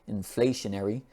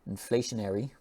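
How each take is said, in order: Both takes have the same delivery.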